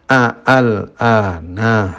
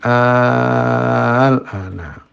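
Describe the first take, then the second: First: A glottal catch separates the two opening vowels. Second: The opening vowel is drawn out very long instead. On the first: "Jadi asalnya kan al-ana" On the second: "hamzah yang kedua diganti dengan alif, itu istilahnya adalah ibdal, menjadi al-ana"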